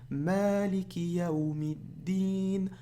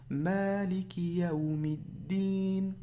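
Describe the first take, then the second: The two takes are said the same way.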